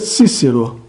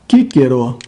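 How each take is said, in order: First: It is read in the traditional Latin pronunciation. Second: It is read in the restored Latin pronunciation. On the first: "Pronúncia tradicional" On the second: "a pronúncia restaurada"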